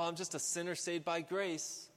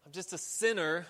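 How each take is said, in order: First: Said in the usual way. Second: "sinner" punched louder; stress on SINNER. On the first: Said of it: "just be like". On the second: Shown as a demonstration. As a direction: lean hard on the word "sinner". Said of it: "emphasis on sinner".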